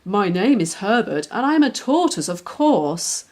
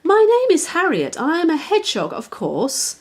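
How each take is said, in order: First: Lightly voiced matter-of-fact tortoise; calm, a little proud, near the reader's own voice. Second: Higher, louder, bright little hedgehog. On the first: Tortoise introduces himself to the puppy, lightly voiced. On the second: Hedgehog introduces herself to the puppy, higher and louder. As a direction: pert and proud, announce yourself. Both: A narrator's reading.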